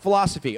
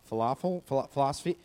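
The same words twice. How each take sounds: First: It sounds confident and clever, like a statement. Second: It sounds dull and unsure, like a question. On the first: The speaker seems educated. The speaker calls it right. "say it smart" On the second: The speaker seems uneducated. The speaker calls it wrong. "don't say it dumb"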